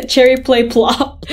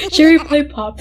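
First: "Plop" said with an extra L; name misread as Plop. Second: Said in the usual way. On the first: Shown as a demonstration. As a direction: say "Plop" in place of Pop, P-L-O-P. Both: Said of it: "Wait, what did I say?".

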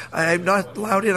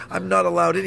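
First: I'm not allowed in, each word slow and deliberate; slow insistent repeat. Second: Said in the usual way. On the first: Retold or imitated. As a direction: spell it out slowly so he gets it. Repeats it to Vernon, slower.

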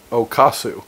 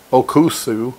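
First: Okasu said flatly as the wrong word; mistaken word Okasu. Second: Okusu said carefully, syllable by syllable; intended word Okusu. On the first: Retelling the blunder to his host mother, plainly saying Okasu. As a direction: lands on Okasu, the word he actually said. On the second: Host mother asked to wake him, trying the word Okusu. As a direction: says Okusu as he meant to ask his host mother. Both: Retold or imitated.

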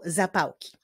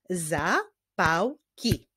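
First: Said in the usual way. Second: "Zapałki" slowly as za, pał, ki; three spaced beats in "Zapałki", pause after each; syllable by syllable. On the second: Shown as a demonstration. Teacher clapping with pupils, "Zapałki" slowly split by syllable. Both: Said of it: "Wyklaszczmy sylaby w tych wyrazach".

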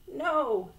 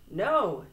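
First: High little peep, still projected. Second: Said in the usual way. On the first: A narrator's reading. Very small Frog answering Toad, peeping. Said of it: "peeped Frog". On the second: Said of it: "said Frog".

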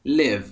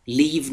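First: Live short, like "liv"; correct pronunciation of live. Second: Live stretched to a long "leev"; wrong pronunciation of live. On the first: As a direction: say Live short, rhyming with give. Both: Shown as a demonstration. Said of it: "Live نیستا".

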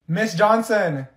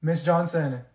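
First: Louder, higher call of Miss Johnson. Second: Said in the usual way. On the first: Acted. Student calling the teacher a second time, louder. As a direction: raise it so the teacher hears. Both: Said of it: "I have to say your name three times".

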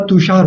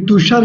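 First: तुषार with a long "aa" in the last syllable, "tu-shaar"; long final vowel. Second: तुषार with short "a" in the last syllable, "tu-shar"; short-vowel mispronunciation. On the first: Teacher correcting the name for students, तुषार with long aa. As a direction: hold the aa open in तुषार. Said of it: "तुषार होता है". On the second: Teacher showing how the name is not said, तुषार with short last vowel. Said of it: "तुषार नहीं होता". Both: Shown as a demonstration.

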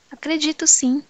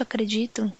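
First: Higher, urgent reassurance; a hurried, eager yes, I believe you; eager insistence. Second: Softer, dying-away acredito; fading repeat. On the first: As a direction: rush to convince him. Pressed to affirm belief. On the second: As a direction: let it trail off, unconvinced. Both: Acted.

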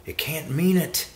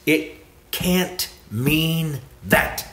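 First: Said in the usual way. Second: "can't mean that" drawn out slowly, higher, each word separate; word-by-word emphasis. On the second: Retold or imitated. Preacher mimics the objection, slow word-by-word emphasis. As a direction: spell out "It can't mean that" one slow, weighty word at a time.

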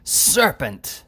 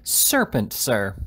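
First: Higher, saw-edged exclamation. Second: Voice raised, then depressed. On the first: Angry editor accusing Mister Winkle, saw-like voice. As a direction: cry it out with a sawing edge. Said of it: "exclaimed in a saw-like voice". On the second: Editor repeats his insult, voice raised then suddenly depressed. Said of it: "raising his voice and then suddenly depressing it". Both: A narrator's reading.

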